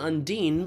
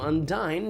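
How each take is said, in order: First: It is said with its usual, established pronunciation. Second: It sounds almost like the word undying. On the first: It names the kind of water spirit. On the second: The name hints that she is undying.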